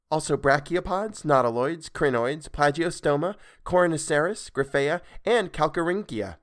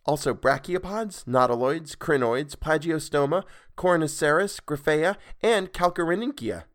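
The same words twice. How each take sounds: The two takes are said the same way.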